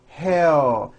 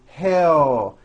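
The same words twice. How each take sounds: No difference in how they are said.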